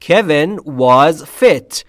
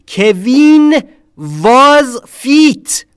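First: Slow "Kevin was fit" with short, relaxed vowels; correct short I. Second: Louder, higher, drawn-out "Keveen vaz feet"; wrong Persian-style pronunciation. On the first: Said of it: "اینجوری نیست". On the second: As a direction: stretch the vowels in "کوین" and "fit" to a long ee, with V in "was". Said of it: "یعنی نمیگیم". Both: Shown as a demonstration.

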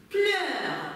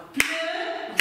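First: Said in the usual way. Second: "pleurs" drawn out slowly, segmented by syllable; split into syllables. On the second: Shown as a demonstration. Teacher showing pupils how to segment "pleurs", slow syllable-by-syllable delivery. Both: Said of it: "Segmentez le mot en syllabes".

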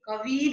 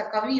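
First: कवि with the final i stretched to ee; wrong long ending. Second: Said in the usual way. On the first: Shown as a demonstration. Teacher showing students a misspelling, कवि with long final ee. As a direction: draw out the end of कवि as "kavee". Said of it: "नहीं होता". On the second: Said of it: "होता है".

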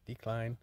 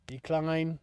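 First: Low, soft mutter at the phone; muttered to himself. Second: Firm repeat. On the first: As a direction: mumble it while tapping decline. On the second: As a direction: Decline said again, firmer and fuller. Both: Real, not acted. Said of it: "did I just get a phone call".

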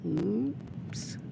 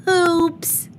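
First: Hushed, sheepish little oops; whisper-quiet uh-oh to herself; a small guilty oops under the breath; soft oops. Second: Put-on high, loud child's oops; a bright squeal of oops; squeaky oops. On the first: Acted. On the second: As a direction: burst out with a high cartoonish oops. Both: Child oops after breaking lamp.

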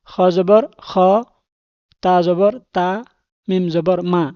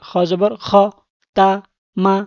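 First: Said in the usual way. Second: Same spelling, clipped to just the syllables; quick spelling. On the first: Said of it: "বানান করে পড়তেছি". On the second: Shown as a demonstration. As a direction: rattle the letters off quickly. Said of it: "তাড়াতাড়ি". (দ্রুত বানান করে পড়া)

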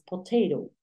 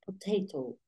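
First: "potato" with a tapped r-like second t; "potato" quickly, last t flapped; own way of potato. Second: "Potato" with a clear t in the last syllable; "Potato" with both t sounds kept; careful potato. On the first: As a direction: say "potato" as "po-TAY-ro". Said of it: "yo digo más potato". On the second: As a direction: say "Potato" softly as "po-TEH-to". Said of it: "Claro que yo digo más potato". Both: Shown as a demonstration.

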